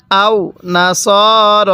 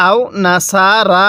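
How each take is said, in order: First: নাসর with no vowel added, closed on r, very slowly; careful slow recitation; correct reading. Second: নাসারা with an added extra vowel, said as a common mistake; wrong reading. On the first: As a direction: show the correct closed ending. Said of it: "কিভাবে পড়তে হবে?". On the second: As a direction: show the incorrect extra a. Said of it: "যদি নাসারা পড়ি পড়াটা সহি শুদ্ধ হবে না". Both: Shown as a demonstration.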